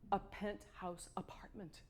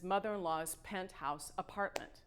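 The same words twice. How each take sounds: First: Hushed, breathless whisper; awed whisper. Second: Said in the usual way. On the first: Real, not acted. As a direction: breathe it out in awe. Awed repeat of penthouse.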